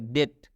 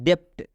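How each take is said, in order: First: No b sound is heard before the t. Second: A b sound is heard before the t. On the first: The speaker calls it right. "इस बी को छोड़ देना है, क्योंकि इस बी का दूदू भाता है। तो ये हम लोग पढ़ेंगे डेट" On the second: The speaker calls it wrong. "बहुत सारे स्टूडेंट इसको पढ़ते हैं डेप्ट। डेप्ट नहीं पढ़ना है"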